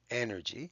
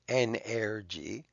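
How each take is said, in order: First: The second e sounds unlike the first e. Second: The second e sounds like the first e. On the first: The speaker calls it right. "The second E is different than the first E" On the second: The speaker calls it wrong. "We don't say energy"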